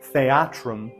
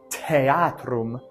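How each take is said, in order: First: The T is said without a puff of air. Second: The T is said with a puff of air. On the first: This is the church pronunciation. "That's what it is in ecclesiastical pronunciation" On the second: This is the classical pronunciation. "teatrum in classical pronunciation. ... It creates a puff of air"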